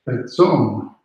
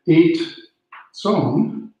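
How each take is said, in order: First: The first word has a short 'e' vowel. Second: The first word has a long 'ay' vowel. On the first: The connecting dash joins it to the next word and shortens it. "with that little dash there, it becomes a tzon" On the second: This is the word's dictionary form without the connecting dash. "it would have been eight tzon"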